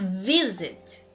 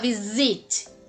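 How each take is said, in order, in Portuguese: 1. A tônica está na primeira sílaba. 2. A tônica está na segunda sílaba. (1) "Você vai falar visit" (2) "Você não vai falar visit"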